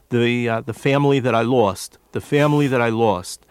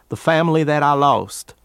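First: A non-Southern accent, with a full 'I' vowel. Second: A Southern accent, with 'I' flattened to 'ah'. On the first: "or what he would say" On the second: "Instead of the vowel I, which never exists in any part of the South, you have ah"

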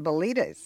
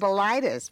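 First: The ending does not rhyme with phlebitis. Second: The ending rhymes with phlebitis. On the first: The name avoids sounding like an illness. The speaker calls it right. "that's why we pronounced it Belitas" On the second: The name sounds like an illness. The speaker calls it wrong. "Instead of Belitis, because we didn't want it to sound like a disease"

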